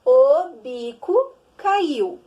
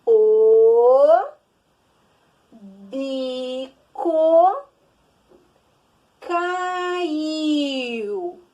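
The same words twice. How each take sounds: First: "O bico caiu" said slowly and loudly as one sentence; slow emphatic reading. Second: "O bico caiu" read slowly, one word at a time. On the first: Teacher to pupils, reading the finished sentence slowly. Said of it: "Então, olha só". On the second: Teacher to children, reading the sentence slowly word by word. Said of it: "Olha lá". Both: Shown as a demonstration.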